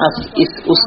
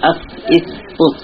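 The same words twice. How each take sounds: First: আস, ইস, উস with a thin whistling s, like sin; wrong sin-like sound. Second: আস, ইস, উস with a thick, heavy Arabic sad; correct heavy sad. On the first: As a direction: let আস, ইস, উস slip into a plain whistled sin. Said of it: "সিনের মতো যেন সিটি না হয়ে যায়". (আস, ইস, উস-এ সিনের মতো পাতলা শিসের স) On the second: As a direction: keep the s of আস, ইস, উস full, not thin like sin. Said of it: "তাহলে সিনে পরিবর্তন হয়ে যাবে". (আস, ইস, উস-এ মোটা সদের উচ্চারণ) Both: Shown as a demonstration.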